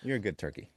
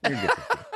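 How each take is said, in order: First: Said in the usual way. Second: Much higher cooing voice; high baby talk. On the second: Shown as a demonstration. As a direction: coo it like praising a pet.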